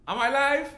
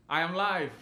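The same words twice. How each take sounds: First: "Am I live" rising at the end; questioning. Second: "live" falling low and soft; low confirmation. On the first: Performer checking he is on air, "live" rising in a question. Testing question against statement. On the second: Performer confirming he is on air, "live" falling low. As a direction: drop "live" softly into a statement. Statement answering own question. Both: Acted.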